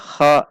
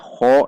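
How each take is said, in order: First: The vowel is said with unrounded, open lips. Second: The vowel is said with rounded lips. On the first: The speaker calls it right. "dengan menaikkan pangkal lidah" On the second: The speaker calls it wrong. "dengan membulatkan bibir"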